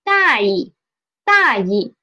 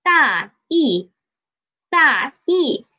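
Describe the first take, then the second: First: 大意 with a short, toneless 意; neutral tone. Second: 大意 with two full falling tones; both full tones. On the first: Teacher shows the word meaning careless, 大意 with neutral-tone 意. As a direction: say 大意 with the second syllable light and unstressed. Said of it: "second syllable as the neutral tone". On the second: Teacher shows the word meaning rough idea, 大意 in full tones. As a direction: say 大 and 意 as separate, fully toned syllables. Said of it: "if I read it as". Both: Shown as a demonstration.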